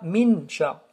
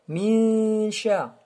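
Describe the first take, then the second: First: The n is pronounced clearly before sh. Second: The n blends into a nasal hum before sh. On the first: The speaker calls it wrong. "On ne dit pas min sha" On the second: The speaker calls it right. "avec une runna ici... Elle sort du nez"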